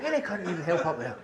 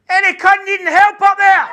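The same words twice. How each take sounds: First: Muttered repeat. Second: High loud shout up the close; calling up the stairs. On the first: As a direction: mumble it under your breath. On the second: Paramedic shouting up the close, loud. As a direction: bellow up the stairwell. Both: Retold or imitated. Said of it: "He put his head in the door and said".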